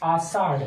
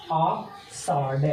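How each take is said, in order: First: Said in the usual way. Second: Ashadh said slowly and drawn out; slow drawn-out repeat. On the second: Shown as a demonstration. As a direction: stretch Ashadh out very slowly, syllable by syllable. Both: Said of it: "teacher repeats the month name".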